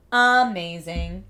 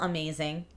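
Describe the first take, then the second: First: Amazing drawn out slowly and loudly with a rising end; slow, loud, delighted Amazing; excited. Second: Said in the usual way. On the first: Real, not acted. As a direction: stretch out Amazing, louder, lifting at the end.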